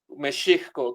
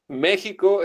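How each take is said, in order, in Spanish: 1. La consonante del medio es un sonido sh. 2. La consonante del medio es un sonido h gutural. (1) "que es la manera correcta de pronunciar el nombre de nuestra nación en lengua náhuatl" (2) "México es en español castellano"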